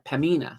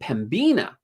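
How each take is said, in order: First: The B sound is left out entirely. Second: The B sound is clearly pronounced. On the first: The speaker calls it right. "Make sure the B is silent" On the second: The speaker calls it wrong. "I was pronouncing the B, so I was saying Pembina"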